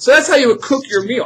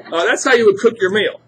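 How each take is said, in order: First: Said in the usual way. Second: Real laughter over the words; laughing. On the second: Real, not acted. Teacher repeats the line to the class, laughing. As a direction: still laughing after the ouch.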